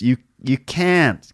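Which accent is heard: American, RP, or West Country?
American. It is said in an American accent. "And America, it sounds a bit like West Country"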